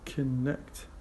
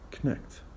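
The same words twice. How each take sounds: First: The weak first vowel is pronounced. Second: The weak first vowel is dropped.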